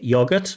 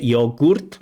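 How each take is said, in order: First: The second vowel is a reduced schwa sound. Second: The second vowel is pronounced fully, not reduced. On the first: The speaker calls it right. "usually we say yogurt" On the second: The speaker calls it wrong. "we wouldn't say yogurt"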